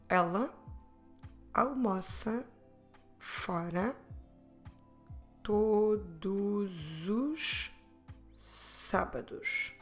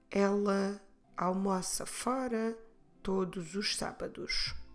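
First: The sentence is said at a normal pace. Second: The sentence is said a little faster. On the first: "Vamos repetir a frase" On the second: "Vamos repetir um pouco mais rápido"

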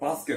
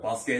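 First: It has the common everyday pitch pattern. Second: It has an unusual, insider-sounding pitch pattern.

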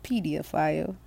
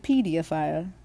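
First: The word is said in a British accent. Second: The same.

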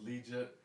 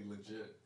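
First: The first syllable sounds like 'lee'. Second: The first syllable sounds like 'luh'. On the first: The speaker calls it wrong. "they think it's like Jet Li backwards" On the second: The speaker calls it right. "but it's really Legit"

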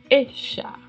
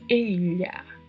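First: The double L sounds like an sh sound. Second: The double L sounds like a palatal lh sound. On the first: "Ou ainda como se fosse um X" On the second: "Ou como se fosse um LH"

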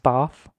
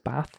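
First: It is said in a posh-sounding accent. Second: It is said in a plain regional accent. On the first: "You say past, bath, grass, don't you? Like a right old posho" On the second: "Where I come from, everyone says bath"

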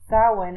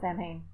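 First: The word is pronounced in its original way. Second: The word is pronounced in an Americanized way.

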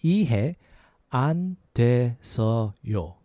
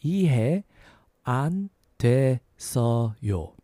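The two takes are said the same way.

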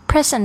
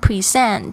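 First: The stress is on the first syllable. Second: The stress is on the second syllable. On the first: It is a gift. "其实就有礼物的用法" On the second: It means to hand something over to someone. "这个重音在第二个音节的时候"

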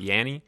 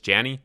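First: The name begins with a Y sound. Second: The name begins with a J sound. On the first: The speaker calls it wrong. "It's not Yanny" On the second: The speaker calls it right. "it's actually pronounced Janny"

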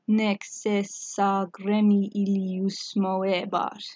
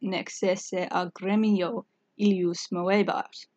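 First: Final vowels merge into the following word. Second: Each word's vowels are pronounced separately.

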